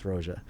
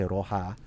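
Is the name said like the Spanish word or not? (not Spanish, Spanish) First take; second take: not Spanish; Spanish. First: It is not said like the Spanish word. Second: It is said like the Spanish word for red. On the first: It is the brand's intended name. The speaker calls it right. "no, no, no, it's Roja" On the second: It is the common way people say it. The speaker calls it wrong. "a lot of people say Roja, which means red in Spanish"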